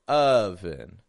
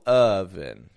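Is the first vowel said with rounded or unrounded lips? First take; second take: unrounded; unrounded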